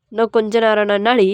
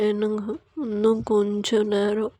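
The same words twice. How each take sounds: First: Firm, full-voiced retort; scolding husband. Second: Soft, slow sleepy plea; sleepy wife. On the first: Husband waking his wife, mildly scolding. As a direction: throw the sleepy plea back at them. Husband throws wife's words back. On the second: Acted. Wife begging husband for more sleep, sleepy and soft. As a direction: murmur it softly, half asleep.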